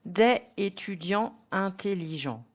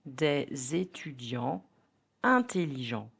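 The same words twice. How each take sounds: First: DES ÉTUDIANTS apart, silent S; "des étudiants" unlinked; no liaison. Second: DES ÉTUDIANTS linked with Z, de-zétudiants; Z joining "des" to "étudiants"; liaison. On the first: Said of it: "So the right pronunciation will be". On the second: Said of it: "the right pronunciation will be". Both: Shown as a demonstration.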